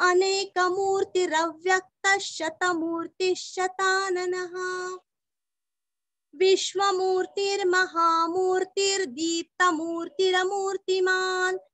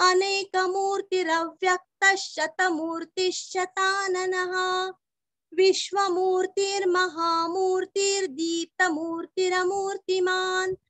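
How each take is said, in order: The two takes are said the same way.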